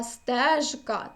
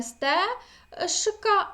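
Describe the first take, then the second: First: "стежка" slowly, with a clearly voiced ж; correct voiced form. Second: "сте-шка" with a voiceless ш, final а drawn out; wrong devoiced form. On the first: Teacher giving students the right form, slow voiced "стежка". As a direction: give "стежка" with a full buzzing ж, slow and careful. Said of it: "а стежка". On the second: Teacher showing students the wrong devoiced way, drawn-out "сте-шка". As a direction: say "сте-шка" as the mistake to avoid, ж turned to ш. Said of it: "ми пишемо не сте-шка". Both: Shown as a demonstration.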